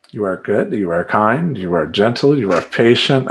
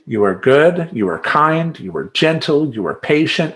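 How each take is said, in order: First: Mantra to calm down. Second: Cheerful mantra. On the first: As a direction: repeat it like a prayer to stay calm in traffic. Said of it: "Just in pure road rage". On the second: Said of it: "that's my little mantra". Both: Shown as a demonstration.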